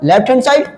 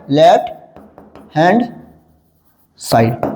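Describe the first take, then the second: First: Said in the usual way. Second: "left", "hand", "side", each alone with long pauses; word by word. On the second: Shown as a demonstration. Teacher dictates the full form to class, word by word. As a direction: dictate slowly, lower, dropping on the last word.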